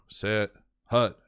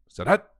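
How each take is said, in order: First: The two words are said as separate sounds. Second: The two words run together as one word. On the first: This is how lower levels of football call it. "they're three distinct sounds" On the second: This is how the highest level calls it, in steady rhythm. "that set hut is basically one word, two syllables"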